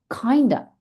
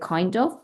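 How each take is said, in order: First: The two words are blended into one reduced word. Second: The two words are said fully and separately. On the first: "connected speech" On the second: "En vez de kind of"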